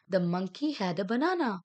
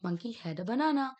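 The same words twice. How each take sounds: First: Slow read sentence. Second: Said in the usual way. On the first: Shown as a demonstration. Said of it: "reading sentence slowly". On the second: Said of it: "confirming the sentence".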